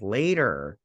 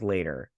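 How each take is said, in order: First: LATER drawn out and firmer; insistent repeat. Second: Said in the usual way. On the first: Retold or imitated. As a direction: stretch out LATER with a firm push. Same answer, repeated more firmly.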